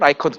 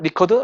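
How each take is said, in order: First: The first syllable sounds like 'rye'. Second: The first syllable sounds like 'ree'. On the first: This is the way the name is said nowadays. "요즘은 라이커트라고도 하더라고요" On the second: This is the older way the name was rendered. "리커드라고 한글 한글식으로 표현했어요"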